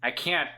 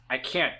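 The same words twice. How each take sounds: The two takes are said the same way.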